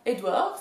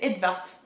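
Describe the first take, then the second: First: The middle is said with a French 'oo-ah' sound. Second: The middle is said with a clear 'v' sound. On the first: The speaker calls it wrong. "c'est pas Edouard" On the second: The speaker calls it right. "c'est Edvard"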